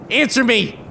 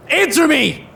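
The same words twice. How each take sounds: First: Raised accusing demand; angry demand. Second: Higher, louder furious yell; furious shout. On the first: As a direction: demand an answer. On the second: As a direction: explode at him. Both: Acted. Man accuses rescuer of poisoning.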